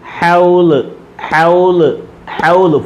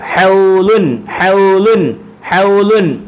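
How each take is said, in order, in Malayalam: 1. വാക്ക് അവസാന വ്യഞ്ജനത്തിൽ ഒന്നും ചേർക്കാതെ നിൽക്കുന്നു. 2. വാക്ക് 'un' എന്ന നാസിക ശബ്ദത്തിൽ അവസാനിക്കുന്നു. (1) "പറയേണ്ടത് ഫുൾ സ്റ്റോപ്പിൽ" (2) "എഴുതിയേക്കുന്ന ഹൗലുൻ"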